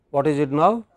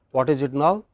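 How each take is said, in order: Both takes have the same delivery.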